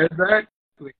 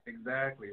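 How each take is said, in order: First: Loud, high, emphatic agreement; excited. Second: Said in the usual way. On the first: Real, not acted. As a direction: burst out with it. Hearty agreement with partner.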